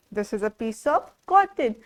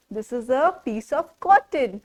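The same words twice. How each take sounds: The two takes are said the same way.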